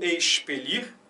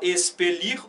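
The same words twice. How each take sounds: First: The x sounds like an sh. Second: The x sounds like an s. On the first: This is how it is said in other regions. "ou de X" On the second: This is how it is said in some regions. "Pode ser som de S"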